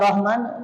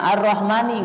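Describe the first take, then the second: First: The word ends on the 'n' sound. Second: The word ends with an 'i' vowel. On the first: The speaker calls it wrong. "gak Ar-Rahman" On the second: The speaker calls it right. "Kalimatnya Ar-Rahmani"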